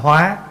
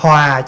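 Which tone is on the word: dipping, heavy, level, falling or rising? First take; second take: rising; falling. First: The word has a high rising tone. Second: The word has a low falling tone. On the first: One lives by adapting and transforming. "bỏ dấu sắc vô thành hóa" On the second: One lives in harmony. "cho nên dấu huyền"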